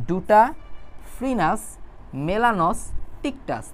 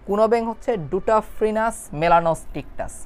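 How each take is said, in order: First: ডুটাফ্রিনাস মেলানোস্টিকটাস read very slowly, piece by piece; split into syllables. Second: Said in the usual way. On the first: Shown as a demonstration. Tutor models slow chunked reading for students: slow syllable-by-syllable reading. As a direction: break ডুটাফ্রিনাস মেলানোস্টিকটাস into syllables and drag each one. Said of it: "ভাইয়া যেভাবে ভাগ করে বের করে দিচ্ছে, এভাবে পড়বা". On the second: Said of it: "ভাইয়া যেভাবে ভাগ করে বের করে দিচ্ছে".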